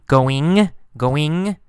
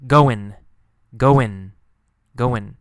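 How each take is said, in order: First: "going" with a clear final ng, slightly rising; careful "going" with the ending intact; g sounded. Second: "goin'" ending in n, falling; no g sound. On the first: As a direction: finish "going" on a full -ing. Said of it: "sometimes g". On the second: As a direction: drop the g from "going" to make "goin'". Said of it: "Sometimes no g sound". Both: Shown as a demonstration.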